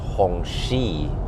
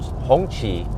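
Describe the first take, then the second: First: The second syllable sounds like 'she'. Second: The second syllable does not sound like 'she'. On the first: The speaker calls it wrong. "it's pronounced Hongxi, like she" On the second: The speaker calls it right. "that's how you correctly pronounce the name"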